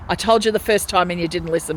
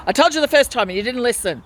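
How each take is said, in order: First: Said in the usual way. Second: Higher, louder, fast mock yell; imitating a yell. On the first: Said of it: "And then yelled at me". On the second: Patient re-enacts the nurse shouting at her, mock yell. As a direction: fire it back like the nurse snapping. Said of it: "yelled at me".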